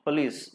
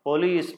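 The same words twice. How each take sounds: First: It is said with English pronunciation. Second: It is said with Telugu-style pronunciation. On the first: The speaker calls it right. "Police is the right pronunciation" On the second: The speaker calls it wrong. "we take a bit liberty and say police"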